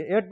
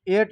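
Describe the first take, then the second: First: एट with open 'ae', like at; correct reading of at. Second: एट with closed 'ay', like eight; wrong reading of at. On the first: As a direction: say एट to rhyme with cat. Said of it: "एट पढ़ेंगे इसको". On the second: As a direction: say एट to rhyme with late. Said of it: "इसको एट नहीं पढ़ेंगे". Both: Shown as a demonstration.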